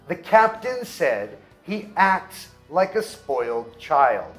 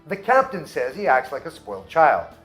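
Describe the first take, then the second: First: The sentence is spoken at a slow pace. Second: The sentence is spoken at a fast pace. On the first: "mesmo falando devagar" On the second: "Vou falar mais rápido"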